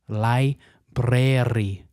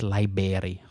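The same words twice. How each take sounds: First: The ending does not sound like 'berry'. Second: The ending sounds like 'berry', as in ryeberry. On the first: The speaker calls it right. "That is correct" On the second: The speaker calls it wrong. "Not library. Ugh, wrong"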